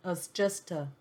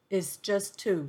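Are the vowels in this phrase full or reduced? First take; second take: reduced; full. First: The vowels are weakened into short neutral sounds. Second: The vowels are pronounced fully and clearly.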